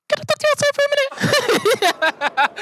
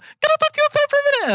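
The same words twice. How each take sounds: First: Very high, airy mock white lady voice; white woman voice. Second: Very high, fast mock white lady voice; white woman voice. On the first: Mimicking the instructor asking him outside, very high. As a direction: imitate that high polite teacher voice. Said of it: "I don't know why white women do this with their voice". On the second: Repeating the teacher's request to the audience, very high and fast. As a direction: squeak it up to an unhearable pitch. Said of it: "that unaudible frequency".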